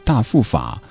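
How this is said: It is said in a Sichuan accent.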